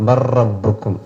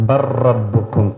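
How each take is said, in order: The two takes are said the same way.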